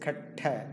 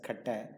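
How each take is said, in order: First: The middle T is long and strongly stressed. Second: The middle T is short and weak. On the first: The speaker calls it right. "No, it is katta. Really, you have to stress" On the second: The speaker calls it wrong. "they tend to say that as katta"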